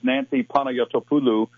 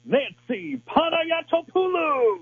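First: The name is said calmly, in plain speech. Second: The name is said with lots of energy.

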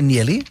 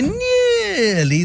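First: The vowel is said short. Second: The vowel is stretched very long.

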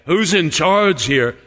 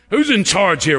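First: It sounds warm and grateful. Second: It sounds annoyed and complaining. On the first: The asker wants to thank the organizer. "I want to thank them" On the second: The asker is upset about the disorder. "Why all this chaos?"

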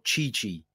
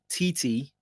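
First: The name is said differently from its spelling. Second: The name is said just as it is spelt.

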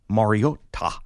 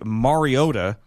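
First: The name is pronounced carefully, every sound enunciated. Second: The name is pronounced casually, with sounds reduced. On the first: This is how the player himself says his name. "I know that's how he pronounces it ... it sounds ridiculous to me" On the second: This is the everyday way most people say it. "So I say Mariota. ... Because we're lazy"

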